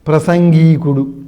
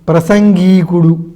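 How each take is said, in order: First: The first vowel is short. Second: The same.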